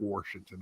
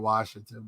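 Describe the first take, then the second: First: It is said with an added R sound. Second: It is said without any R sound. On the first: "but maybe I said" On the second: "I thought I said it"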